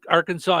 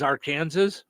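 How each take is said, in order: First: It is said the usual way. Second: It is said the way it is spelled.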